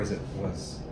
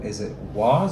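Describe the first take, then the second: First: The word 'was' has a reduced, unstressed vowel. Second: The word 'was' has a full, clear vowel.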